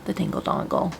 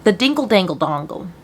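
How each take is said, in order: First: A stunned whispered repeat. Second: Said in the usual way. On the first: Shown as a demonstration. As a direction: whisper it in disbelief.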